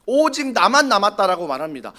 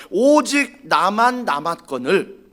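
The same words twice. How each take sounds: First: Said in the usual way. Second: Drawn out slowly, stress on 오직; slow emphatic quote. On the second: Shown as a demonstration. Preacher quoting Elijah's complaint, slow and weighty. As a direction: stretch 오직 나만 out slowly.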